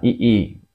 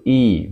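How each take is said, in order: First: "ii" said as a drawn-out long vowel. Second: "i" said as one short vowel. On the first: Teacher contrasting the long reading, "ii" drawn out. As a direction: stretch the "ii" into one long vowel. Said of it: "Panjang ini bacanya". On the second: Teacher showing the correct reading, a short "i". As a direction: clip the "i" short, a single quick vowel. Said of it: "Bacanya bukan ii, jadi i". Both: Shown as a demonstration.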